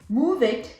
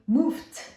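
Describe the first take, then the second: First: The ending is an extra syllable, id. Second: The ending is a voiceless t sound. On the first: "it's not an it. I don't say move it" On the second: "it's not a T, I don't say moved"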